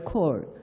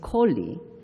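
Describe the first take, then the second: First: The surname is said as one syllable. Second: The surname is said as two syllables. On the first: The speaker calls it wrong. "We used to call him Professor Royal Cole" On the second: The speaker calls it right. "the right pronunciation of his last name is Coley"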